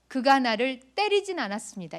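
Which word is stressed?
때리진. The third word carries the stress. It was only a touch, not a hit. "이 말은 때리진 않았고 그냥 손을 댔다는 뜻일 수 있어요"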